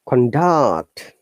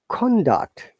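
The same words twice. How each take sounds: First: The pitch goes from low to high. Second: The pitch goes from high to low. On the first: The word is used as a verb. "down to upper intonation, this is verb" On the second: The word is used as a noun. "higher intonation to down intonation. It is always noun"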